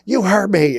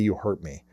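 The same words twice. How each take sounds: First: It is said in a reactive tone. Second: It is said in a calm tone.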